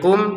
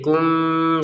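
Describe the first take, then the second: First: The final m is pronounced fully and clearly. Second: The final m is muffled and held nasally. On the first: "awalnya dibaca jelas" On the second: "dibacanya dengan samar"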